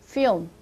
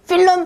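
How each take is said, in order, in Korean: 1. 이 단어는 한 음절이에요. 추가되는 모음이 없어요. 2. 이 단어는 두 음절이에요. 모음이 하나 더 있어요. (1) "film이라고 발음을 하셔야 되겠죠?" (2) "필름 땡땡 아니었죠?"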